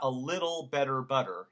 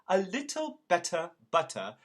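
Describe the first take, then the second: First: The middle T sounds are soft, almost like D. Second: The middle T sounds are crisp, clear T sounds. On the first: The speaker calls it wrong. "but not a little better butter" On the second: The speaker calls it right. "we are very exacting in pronouncing our T's"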